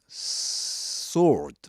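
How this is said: An r sound is heard after the vowel. "in American English, you'll hear something like sword"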